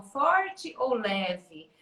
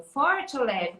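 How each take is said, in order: First: Slow, stretched-out Forte ou leve; drawn-out teacherly Forte ou leve; very slow question. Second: Said in the usual way. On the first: Shown as a demonstration. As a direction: draw the question out for the child. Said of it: "Como eu vou fazer carinho na mãe". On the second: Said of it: "Como que eu vou esfregar meu corpo".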